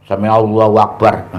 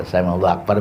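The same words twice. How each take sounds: First: Said in the usual way. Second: Rushed prayer. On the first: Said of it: "Sami Allahu Akbar bagaimana". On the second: Shown as a demonstration. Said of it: "Ini modern nih".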